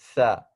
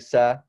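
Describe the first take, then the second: First: It starts with the tongue between the teeth. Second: It starts with a plain hissing 's' sound. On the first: The speaker calls it right. "you have to make sure that your tongue comes between your teeth" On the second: The speaker calls it wrong. "a lot of people, they just say sa, sa, and that's not how you do this"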